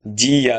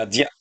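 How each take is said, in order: First: "জিয়া" drawn out as two beats, ji-ya; syllables apart. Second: "জিয়া" merged into one short beat, jya; blended syllable. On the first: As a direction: stretch "জিয়া" into separate ji and ya. ("জিয়া" ভেঙে টেনে, জি-ইয়া) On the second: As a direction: say "জিয়া" quickly joined as jya. ("জিয়া" জুড়ে ছোট করে, জ্যা) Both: Shown as a demonstration. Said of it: "আসবো যুক্ত বর্ণে".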